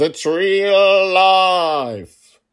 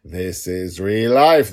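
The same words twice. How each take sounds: First: High, very slow and loud, stretched to breaking; overblown, drawn-out cry; dramatic. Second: Slow, loud declaration of each word; firm and forceful, stretched out; emphatic. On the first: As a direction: belt it out like a grand proclamation. Repeating the claim more dramatically. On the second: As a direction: spell out that this is real life. Insisting fiction is real life. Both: Real, not acted.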